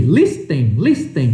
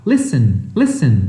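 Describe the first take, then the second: First: "listen" misread with a spoken T, "lis-ten"; T pronunciado errado. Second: "listen" with the T dropped, "lissen"; T mudo. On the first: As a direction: sound out the silent T in "listen", as a learner would. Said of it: "você não fala esse T aqui". ("listen" com o T pronunciado, "lis-ten") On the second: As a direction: say "listen" as if it had no T. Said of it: "tira o T e fala". ("listen" sem som de T, "lissen") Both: Shown as a demonstration.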